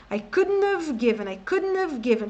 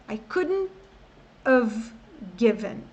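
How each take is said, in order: First: "couldn't have" run together without the t; contracted and linked. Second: "couldn't", "have", "given" cut apart by pauses; halting, separated. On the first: Teacher shows the easier way, "couldn't have given" linked. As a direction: drop the t in "couldn't" and slide into "have". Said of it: "dá pra encurtar mais ainda". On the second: Teacher shows how unlinked words stall, "couldn't have given" in pieces. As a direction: stop after "couldn't" and again after "have". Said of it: "É complicado eu travar". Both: Shown as a demonstration.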